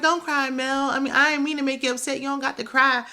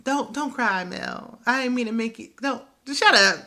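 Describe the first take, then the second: First: Imitating Martell. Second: Imitating Martell dead serious, pitched higher; deadpan, earnest plea, snapping at the end; mock-serious Martell. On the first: Martell mock-consoling Mel, higher and mock-soothing. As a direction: play the fake-sweet comforter, hands up. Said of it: "Martell was like". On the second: Martell earnestly telling Mel not to cry, mock-serious. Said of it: "He was so serious".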